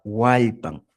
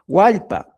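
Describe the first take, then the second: First: "hualpan" closed on an n, falling lower; added final n. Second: Said in the usual way. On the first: Shown as a demonstration. Teacher showing the possessive, final n added. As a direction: say "hualpan" with a final n after the last a. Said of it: "una E". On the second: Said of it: "en vez de decir".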